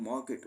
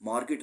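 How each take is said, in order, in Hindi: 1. r की आवाज़ silent रहती है। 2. r की आवाज़ साफ़ बोली जाती है। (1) "मार्केट उसको बोलेंगे, यानी आर साइलेंट हो जाएगा" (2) "मार्केट नहीं वर्ड बोलते"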